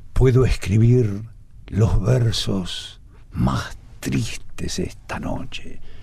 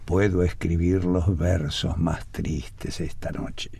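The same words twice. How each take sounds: First: It is read with heavy dramatic emphasis. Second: It is read plainly with little emphasis.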